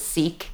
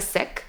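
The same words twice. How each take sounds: First: It has the common North American pronunciation. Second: It has the original, traditional pronunciation. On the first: The speaker calls it wrong. "Oftentimes in the US and Canada, we hear it pronounced as Sikh" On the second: The speaker calls it right. "So it's actually, I am a Sikh"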